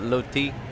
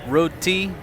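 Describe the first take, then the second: First: The word begins with an L sound. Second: The word begins with an R sound. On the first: "Thai people pronounce it loti" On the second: "he's selling what's called roti"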